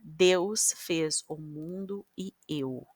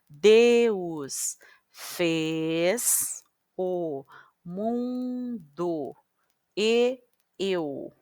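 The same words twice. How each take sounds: First: The sentence is read quickly. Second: The sentence is read slowly.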